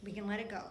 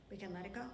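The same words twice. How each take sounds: First: Said in the usual way. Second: Much quieter echo; soft release. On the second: Shown as a demonstration. Pastor calmly releasing it for the congregation, soft. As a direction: let it go gently. Softer repeat.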